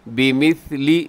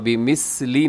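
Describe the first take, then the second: First: The middle consonant is a soft th sound. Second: The middle consonant is a hissing s sound. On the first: The speaker calls it right. "यहाँ सा है" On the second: The speaker calls it wrong. "यहाँ बिमिस्ली ना पढ़िएगा, यहाँ सीटी नहीं है"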